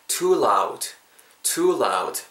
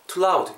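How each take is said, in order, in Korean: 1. 'too'는 길고 강세가 있습니다. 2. 'too'는 짧고 강세가 없습니다. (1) "too를 강조해주세요. 길게 make it long" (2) "이렇게 너무 짧게 하지 마시고"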